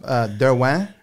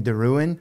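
First: The name is said with a French pronunciation. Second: The name is said with an anglicized pronunciation. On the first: This is the family's original pronunciation. The speaker calls it right. "It's actually, from what I know growing up" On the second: This is how other people said the name. The speaker calls it wrong. "people would call me"

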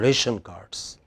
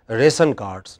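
First: The middle of 'ration' has a 'sh' sound. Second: The middle of 'ration' has an 's' sound. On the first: "not for ration cards" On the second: "We stand in the queue for ration cards"

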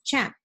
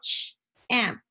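First: The word is said smoothly as one unit. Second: The word is split into separate sound parts. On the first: "then we'll say it in a snap" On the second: "We're going to tap it out"

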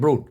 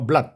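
First: The vowel is an 'oo' sound. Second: The vowel is a short 'uh' sound. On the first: The speaker calls it wrong. "ไม่ใช่" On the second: The speaker calls it right. "เสียงมันเป็นอะสัญลักษณ์นี้นะครับอะก็คำนี้จึงอ่านว่า"

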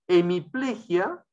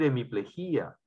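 First: The stress falls on the syllable ple. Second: The stress falls on the syllable jí.

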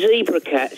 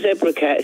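First: Zebra is pronounced the American way. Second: Zebra is pronounced the British way. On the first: The speaker calls it right. "it's actually Zebra Cats ... He's American, so like zebra" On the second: The speaker calls it wrong. "It's not Zebra Cats"

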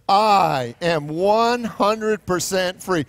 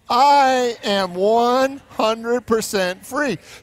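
First: It is said in a plain, unexcited way. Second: It is said in an excited, lively way.

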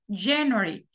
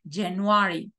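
First: The stress falls on the first syllable. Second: The stress falls on a later syllable. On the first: The speaker calls it right. "tengo que decir January" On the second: The speaker calls it wrong. "en inglés no puedo decir January, como en español"

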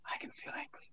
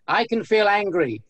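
First: It is said in an ordinary speaking voice. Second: It is said in a quiet whisper. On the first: "Then you whisper it" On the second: "Then you announce it to the world or to the room"

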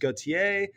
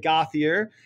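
First: The surname is said in a French way. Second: The surname is said in an Americanized way. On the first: "the French pronunciation is Gauthier" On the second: "normally in New Hampshire, people will say Gauthier"

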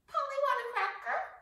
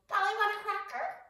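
First: It is said in a squawky parrot voice. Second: It is said in a squawky parrot voice.

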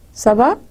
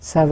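First: It is asked as a question, rising. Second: It is a reply, falling at the end.

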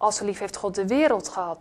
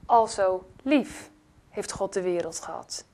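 First: The word "wereld" carries the main stress. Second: The word "lief" carries the main stress. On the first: The world was loved, not angels or saints. "Er staat niet engelen, heiligen. Nee, hij heeft de wereld lief gehad" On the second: It was love, not anger. "Er staat niet, al zo toornig was God"

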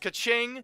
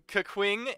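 First: The second syllable sounds like 'ching'. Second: The second syllable sounds like 'queen'. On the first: The speaker calls it right. "I wanted to also say it's Ka-Ching" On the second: The speaker calls it wrong. "pronouncing these names atrociously"

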